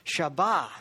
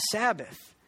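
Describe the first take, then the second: First: "Shabbath" said as shah-BAH with a sh sound; Hebrew pronunciation. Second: Said in the usual way. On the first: Shown as a demonstration. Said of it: "or Sabbath".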